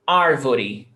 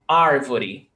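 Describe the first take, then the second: No difference in how they are said.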